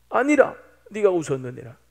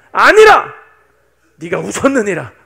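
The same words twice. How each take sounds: First: Said in the usual way. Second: Booming accusation; God's fearsome rebuke. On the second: Acted. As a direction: thunder the contradiction, then press it home. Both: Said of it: "무섭게 따지시는 거예요".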